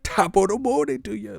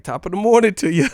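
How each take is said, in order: First: Hammed-up cheerful hello; mock cheery greeting. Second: High, loud chirpy servant greeting; hammed-up cheerful hello; mock cheery greeting. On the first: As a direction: chirp it like an eager servant. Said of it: "the slave is". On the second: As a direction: sing it out like an overeager servant. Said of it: "He raised, like".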